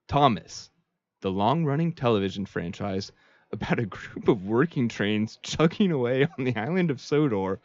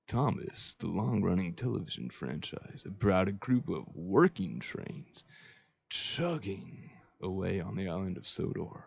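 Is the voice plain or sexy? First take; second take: plain; sexy. First: It is read in a plain voice. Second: It is read in a sexy voice.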